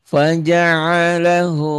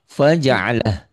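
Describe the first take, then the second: First: The word ends with a long hu vowel. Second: The word ends cut short on a consonant. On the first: The reading continues without stopping. "Panjang apabila diteruskan" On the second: The reading stops here. "kalau dihentikan ini jadi sukun jadi pendek"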